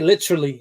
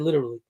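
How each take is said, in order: First: The word is said with every syllable. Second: The word is said with fewer syllables. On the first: The speaker calls it wrong. "That's too many syllables" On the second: The speaker calls it right. "I say literally"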